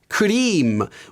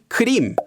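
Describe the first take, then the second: First: It is pronounced in a Japanese-sounding way. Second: It is pronounced the standard Korean way. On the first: The speaker calls it wrong. "closer to the Japanese pronunciation of this word" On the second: The speaker calls it right. "the Korean word for cream"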